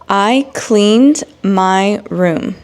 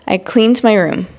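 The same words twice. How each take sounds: First: It is spoken slowly and carefully. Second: It is spoken at a normal pace. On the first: "read these examples in slow English" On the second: "then I will read it in normal speed"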